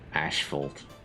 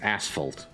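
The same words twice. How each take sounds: First: The first syllable has an 'sh' sound. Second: The first syllable has a plain 's' sound. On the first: "I believe that's the uh, British pronunciation of that" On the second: "to me it's always asphalt"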